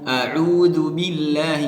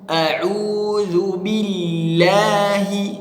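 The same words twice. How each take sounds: First: The doubled l is said flat, without pressure. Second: The doubled l is pressed with clear emphasis. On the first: The speaker calls it wrong. "jangan lurus-lurus, jangan billahi" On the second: The speaker calls it right. "harus kita tekan"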